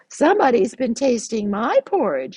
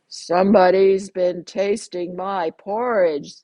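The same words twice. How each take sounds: First: It is said in a medium-pitched voice. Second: It is said in a big, deep voice. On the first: "in her middle-sized voice" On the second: "in a great big voice"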